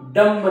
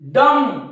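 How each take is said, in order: First: The word ends with an audible b sound. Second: The word ends on m with no b sound. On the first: The speaker calls it wrong. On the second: The speaker calls it right.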